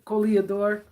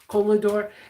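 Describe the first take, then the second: First: The word has an extra vowel, four syllables. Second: The word is said with three syllables. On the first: The speaker calls it wrong. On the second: The speaker calls it right.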